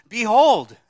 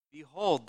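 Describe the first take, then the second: First: Cried out loud and high, Behold; loud proclamation. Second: Said in the usual way. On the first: Shown as a demonstration. Preacher quoting Matthew to congregation, loud proclaimed Behold. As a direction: ring out Behold like a herald. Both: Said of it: "Matthew says".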